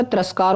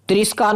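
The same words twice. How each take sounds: First: तिरस्कार with short a, t'ras-kaar; corrected pronunciation. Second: तिरस्कार with i in 'ris', tris-kaar; wrong pronunciation. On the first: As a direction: say तिरस्कार with 'ras', not 'ris'. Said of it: "होता है". (तिरस्कार में 'रस' साफ़ बोलें) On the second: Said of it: "नहीं होता". (तिरस्कार को 'त्रिस्कार' बोलें) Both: Shown as a demonstration.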